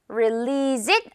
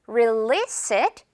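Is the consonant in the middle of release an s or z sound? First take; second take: z; s. First: The middle consonant is a voiced z sound. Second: The middle consonant is a voiceless s sound. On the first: The speaker calls it wrong. "아니고" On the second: The speaker calls it right. "S로 발음된다는 거 기억을 해야겠죠?"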